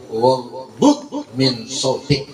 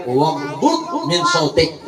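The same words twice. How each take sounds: First: Sung, very slow melodic Waghdud min sautik, laughing; sung, drawn-out recitation; sung, slow laughing Arabic recitation; sung, Quran recitation. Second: Sung, slow measured recitation of Waghdud min sautik; sung, recite it slowly; sung, slow Arabic verse recitation; sung, Quran recitation. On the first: Recites verse again. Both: Acted.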